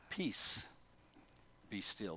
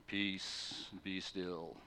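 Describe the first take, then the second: First: Soft, hushed "Peace, be still"; calm and soft as an old hymn; gentle. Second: Soft, low, hushed "Peace, be still"; calm. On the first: Retold or imitated. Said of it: "In the old translations, it says". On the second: Shown as a demonstration. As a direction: say it calmly, almost under the breath. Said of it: "Jesus didn't calmly get up and just say".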